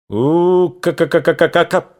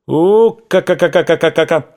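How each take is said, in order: First: High rattling ka-ka-ka burst; machine-gun imitation. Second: High, louder ka-ka-ka rattle; machine-gun imitation. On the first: Narrator imitates machine-gun fire. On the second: Narrator imitates machine-gun again. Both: Shown as a demonstration.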